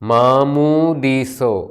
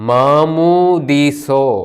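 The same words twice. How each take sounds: The two takes are said the same way.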